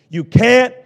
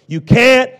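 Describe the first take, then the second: The two takes are said the same way.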